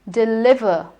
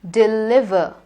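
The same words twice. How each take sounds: No difference in how they are said.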